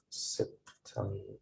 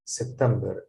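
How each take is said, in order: First: September said slowly, softer, each syllable clear. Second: Said in the usual way. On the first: Shown as a demonstration. Teacher modelling September slowly for students. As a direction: spell out September slowly and softly. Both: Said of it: "pronounced like this".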